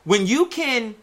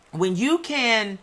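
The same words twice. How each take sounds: The two takes are said the same way.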